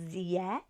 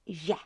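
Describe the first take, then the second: First: The consonant is a hard z sound. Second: The consonant is a soft zh-like sound. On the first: The speaker calls it wrong. "it's not zie" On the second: The speaker calls it right. "it's je"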